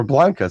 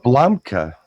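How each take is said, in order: First: Said in the usual way. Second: Blanca said with an M, as "BLAM-ka"; misspelled name pronunciation. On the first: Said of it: "same thing". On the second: Retold or imitated. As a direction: read the typo in Blanca aloud, an M replacing the N. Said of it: "it was a typo on the first one".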